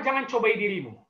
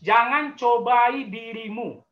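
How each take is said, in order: First: Said in the usual way. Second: "Jangan cobai dirimu" said at half speed with "cobai" pressed hard and falling; slow emphatic repeat. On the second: Shown as a demonstration. Pastor repeats the warning to young people, slow and stressed. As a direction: drag out "cobai" so it lands as a warning.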